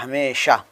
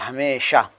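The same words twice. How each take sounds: First: The middle consonant is a clear 'sh' sound. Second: The same.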